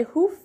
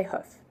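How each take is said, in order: First: "hoof" with a long oo as in food; dialect variant. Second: "hoof" with a short oo as in foot; other variant. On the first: Teacher contrasts two American pronunciations. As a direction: stretch the vowel in "hoof" to oo. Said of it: "some people say hoof". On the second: Teacher gives the second American pronunciation. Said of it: "and some people say hoof". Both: Shown as a demonstration.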